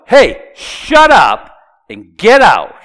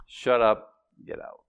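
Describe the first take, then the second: First: Loud, high, drawn-out command; a little loud. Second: Soft, understated command; calm, matter-of-fact. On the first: Preacher voicing Jesus ordering a demon out, loudly. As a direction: bellow the order slowly. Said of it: "I'm saying it a little loud". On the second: Preacher voicing Jesus dismissing a demon, very calmly. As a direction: give the order quietly, without any force. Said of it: "Very calmly, very matter-of-factly". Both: Shown as a demonstration.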